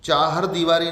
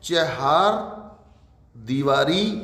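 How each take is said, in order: First: The first vowel is long. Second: The first vowel is short. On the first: The speaker calls it wrong. "चाहर दीवारी नहीं होगा" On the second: The speaker calls it right. "शुद्ध होगा चहार दीवारी"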